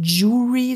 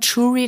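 First: The word begins with a 'dj' sound. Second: The word begins with a soft 'sh' sound. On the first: The speaker calls it right. "wir müssen Jury sagen" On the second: The speaker calls it wrong. "Würden wir mit also Tisch sagen, Jury, das ist falsch"

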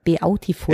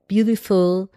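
First: The word is sounded out letter by letter. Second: The word is pronounced the usual English way. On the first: This is how one recalls the spelling while writing. "Und im Kopf, wenn du es geschrieben hast" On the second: This is how the word is said aloud. "dass du dann gesagt hast"

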